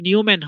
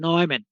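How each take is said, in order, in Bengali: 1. প্রথম সিলেবলটি 'new' এর মতো শোনায়। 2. প্রথম সিলেবলটি 'noy' এর মতো শোনায়। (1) "উচ্চারণ কিন্তু নিউম্যান হবে না" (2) "উচ্চারণ হবে নয়ম্যান"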